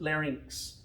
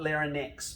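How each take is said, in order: First: The word is said as lar-inks. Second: The word is said as lar-nix. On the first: The speaker calls it right. "but larynx" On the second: The speaker calls it wrong. "not larynx"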